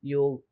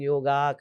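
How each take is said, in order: First: The word ends in a consonant sound. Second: The word ends with an added 'a' vowel. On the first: The speaker calls it right. "योग ही होना चाहिए।" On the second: The speaker calls it wrong. "अब लोग योगा कर देते हैं foreign में"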